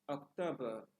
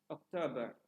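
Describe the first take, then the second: The two takes are said the same way.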